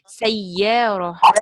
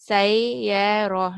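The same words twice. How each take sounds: First: The doubled y is pressed hard and kept short. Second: The doubled y is soft and drawn out. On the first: The speaker calls it right. "It should be sayyarah. To give that pressure" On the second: The speaker calls it wrong. "I should not say sayyarah, not like that"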